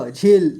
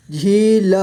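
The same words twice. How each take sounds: First: Said in the usual way. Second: झील split into झी, ल; sounded out. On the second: Shown as a demonstration. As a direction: stretch झी, then ल apart in झील. (झील को तोड़कर: झी, ल) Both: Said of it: "इस तरह से आपको".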